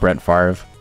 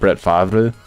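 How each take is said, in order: First: The surname is said with an American pronunciation. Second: The surname is said with a French pronunciation. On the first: The speaker calls it wrong. "Like Brett Favre" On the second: The speaker calls it right. "Instead of Brett Favre"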